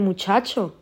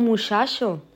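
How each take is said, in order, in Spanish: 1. La ch suena como un tch completo. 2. La ch suena suave, como sh. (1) "en vez de muchacho" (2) "O muchacho en vez de"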